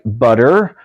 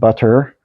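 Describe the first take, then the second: First: The middle T is flapped, sounding like D. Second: The middle T is pronounced as a clear T. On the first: "it becomes more of a D sound" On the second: "instead of butter"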